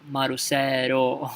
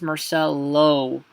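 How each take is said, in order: First: The last syllable begins with an R sound. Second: The last syllable begins with an L sound. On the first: "low is gonna become ro" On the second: "my name is Marcelo"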